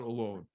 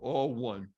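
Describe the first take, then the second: First: It is said as one word with a weak start. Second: It is said as two words, 'all' and 'one'. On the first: A person is by themselves. The speaker calls it wrong. "the word alone is mispronounced" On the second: Everyone is united as one. The speaker calls it right. "should be pronounced all one"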